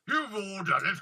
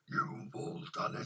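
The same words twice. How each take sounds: First: It is said in a lighter, ordinary voice. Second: It is said in a deep, gravelly put-on voice. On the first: The speaker calls it wrong. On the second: The speaker calls it right.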